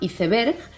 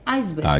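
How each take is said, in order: First: It is read as spelled, with Spanish sounds. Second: It copies the English pronunciation of the word. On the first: This is how it is said in Spain. "En España se pronuncia leyéndolo tal cual" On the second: This is how it is said in the Americas. "en América se pronuncia reproduciendo la pronunciación del inglés"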